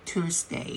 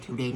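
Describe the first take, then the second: First: Tuesday with a long "oo" vowel, "tus-day"; correct pronunciation. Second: Tuesday said wrongly as "tiw-day", with an "iw" sound; the common mistake: Tuesday with "iw" instead of "oo"; wrong pronunciation. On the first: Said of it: "ไปเชิงสระอูเลยเนาะ". (ออกเสียง Tuesday ให้ถูกเป็นเสียงสระอู "ทูสเดย์") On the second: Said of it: "พยายามอย่าอ่านว่า Tuesday นะลูก". (ออกเสียง Tuesday ผิดเป็น "ทิวส์เดย์") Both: Shown as a demonstration.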